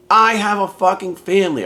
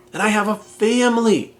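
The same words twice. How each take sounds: First: "I have a fucking family" with I and fucking punched hard; stress on I and fucking. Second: Said in the usual way. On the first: Real, not acted. Podcaster to listeners, insisting on what he has, emphatic stress.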